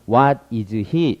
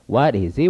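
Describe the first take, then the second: First: Each word is said separately with breaks. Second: The words run smoothly together without breaks. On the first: The speaker calls it wrong. "이게 절대 이렇게 얘기 안 합니다" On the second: The speaker calls it right. "부드럽게 이어지는 것이 좋습니다"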